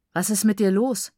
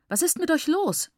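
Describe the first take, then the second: First: Offhand, lightly taunting question; casual. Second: High, exasperated outburst; very angry. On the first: Brother pinning his sister down, casual. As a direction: ask it casually, unbothered by the fight. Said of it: "sagte er lässig". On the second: Teacher rebuking the whole group, very angry. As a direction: demand it, pitch leaping up in indignation. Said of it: "war über alle sehr verärgert". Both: A narrator's reading.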